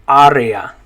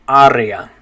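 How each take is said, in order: No difference in how they are said.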